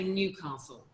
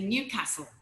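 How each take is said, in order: First: It is said in an RP accent. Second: It is said in a northern English accent.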